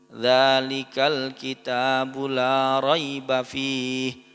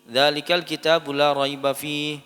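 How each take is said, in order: First: It is recited slowly and carefully. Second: It is recited at a moderately quick pace. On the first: "Temponya tidak terlalu cepat" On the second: "kalau misalkan bisa lebih cepat tadwir"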